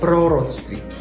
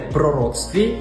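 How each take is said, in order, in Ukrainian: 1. Наголос падає на перший склад. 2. Наголос падає на наступний склад. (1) "більшість слів мають наголос на першому складі" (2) "ставити наголос у словах не на перший склад"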